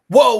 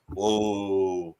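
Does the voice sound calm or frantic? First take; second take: frantic; calm. First: It is said in a high, frantic voice. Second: It is said in a low, calm voice. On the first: The dogs hear it as a command to go. The speaker calls it wrong. "that sounds like hike, hike, hike, hike, hike to them" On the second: The dogs understand it as a command to stop. The speaker calls it right. "in a low, calm voice"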